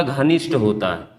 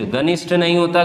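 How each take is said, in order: First: घनिष्ठ said low with the aspirated घ clear and a falling close; correcting emphasis. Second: Said in the usual way. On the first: Shown as a demonstration. Teacher correcting the class, firm and low. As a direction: settle firmly on घनिष्ठ, lower.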